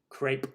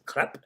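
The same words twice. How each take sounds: First: It is said with an American pronunciation. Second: It is said with an attempted French pronunciation. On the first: "So I'll just say it the American way" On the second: "I can't ever pronounce it perfectly the French way"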